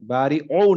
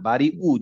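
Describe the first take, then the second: First: The word ends with an 'o' vowel. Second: The word ends with a plain 'oo' vowel. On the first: The speaker calls it wrong. "বাড়ি ও না" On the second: The speaker calls it right. "Just normal উ"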